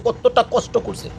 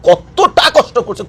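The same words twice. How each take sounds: First: Much softer, slow, কতটা fading; quiet slow echo. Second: Slow, each word weighed on কতটা; slow emphasis. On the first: Vlogger echoing Gaza's suffering, soft and slow. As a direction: let কতটা কষ্ট করছে sink almost to nothing. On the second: Vlogger urging viewers to ask Gaza, slow weighty. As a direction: drag out কতটা কষ্ট করছে slowly. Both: Real, not acted.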